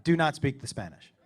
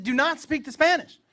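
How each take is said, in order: First: Low, measured order; firm warning. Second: High, loud, heated command; exasperated order. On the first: Dad warning his son in Mexico, firm and controlled. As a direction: lay down the rule in a lowered voice. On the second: Dad repeating the rule to his son, exasperated. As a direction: raise your voice and lay down the law. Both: Retold or imitated.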